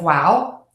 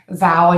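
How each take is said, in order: First: The word begins with a W sound. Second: The word begins with a V sound. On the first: The speaker calls it right. "instead of" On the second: The speaker calls it wrong. "I'll hear a V"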